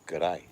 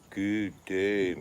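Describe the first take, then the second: First: The two words are squeezed into one quick word. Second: Both words are said fully and separately. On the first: The speaker calls it right. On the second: The speaker calls it wrong.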